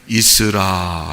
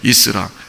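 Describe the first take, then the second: First: It is said calmly and softly. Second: It is said forcefully and loudly.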